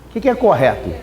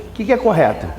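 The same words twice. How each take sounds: The two takes are said the same way.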